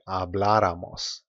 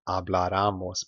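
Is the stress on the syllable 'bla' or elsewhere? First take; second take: bla; elsewhere. First: The stress falls on the syllable 'bla'. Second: The stress falls on a syllable other than 'bla'. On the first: The speaker calls it right. "So you say habláramos" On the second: The speaker calls it wrong. "not habláramos"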